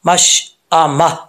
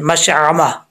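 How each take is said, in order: First: A light glottal stop follows the 'sh'. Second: A throaty 'ayn' sound follows the 'sh'. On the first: The speaker calls it right. "हमजा पढ़ना है।" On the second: The speaker calls it wrong. "अक्सर लोग इसको आइन पढ़ देते हैं, ... ऐसा नहीं पढ़ना"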